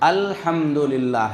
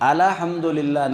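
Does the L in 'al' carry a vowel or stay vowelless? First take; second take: vowelless; vowel. First: The L at the start has no vowel. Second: The L at the start carries a vowel. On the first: The speaker calls it right. "लाम के ऊपर क्या है, जज़म है" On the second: The speaker calls it wrong. "एक गलती करते हैं, अल्हम्दुलिल्लाह नहीं है"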